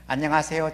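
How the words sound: The voice is thin and weak, lacking fullness. The speaker calls it wrong. "이 목소리는 아주 빈약한 소리가 돼요"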